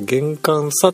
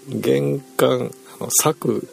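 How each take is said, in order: First: The word ends on the 'sa' syllable. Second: The word ends with an extra 'ku' syllable. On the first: The speaker calls it right. "これは玄関差と読みますと" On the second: The speaker calls it wrong. "多分玄関策療法って私呼んでしまったんですけど"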